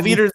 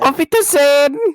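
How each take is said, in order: First: It is said in his plain voice. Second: It is said in a put-on German accent.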